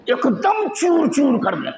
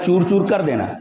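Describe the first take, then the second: First: High, drawn-out stress on "चूर चूर"; emphatic exaggeration. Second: Said in the usual way. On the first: Shown as a demonstration. Teacher showing the intensive sense, "चूर चूर" stretched high with force. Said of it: "मुबालगा है". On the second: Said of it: "मुबालगा हो".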